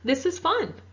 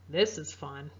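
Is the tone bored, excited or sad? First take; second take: excited; bored. First: It sounds excited, with rising, higher pitch. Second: It sounds bored, flat and unenthusiastic. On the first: The speaker is enjoying it. "My voice went up and my tone is a little higher" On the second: The speaker is not interested. "where I sound a little bored"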